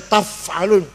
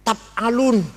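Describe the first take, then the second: First: The consonant before 'alun' is an F sound. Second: The consonant before 'alun' is a P sound. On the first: This is the intended reading of the word. The speaker calls it right. "sulit baca taf alun" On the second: This is how speakers who cannot say 'fa' read it. The speaker calls it wrong. "Orang Sunda tidak bisa fa"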